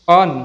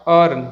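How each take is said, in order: First: Earn as "uhn"; silent r. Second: Earn with an audible r before n; sounded r. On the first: Teacher models the correct word, r silent. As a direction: drop the r in Earn. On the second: Teacher shows the mistake, r sounded. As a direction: pronounce the r in earn. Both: Shown as a demonstration.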